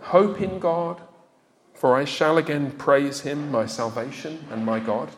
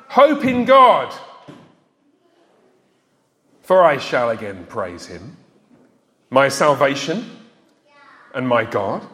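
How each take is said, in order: First: It is said in a low, despairing tone. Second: It is said in a bright, hopeful tone. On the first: The words just echo how bad one feels. The speaker calls it wrong. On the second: The words express real hope and confidence. The speaker calls it right.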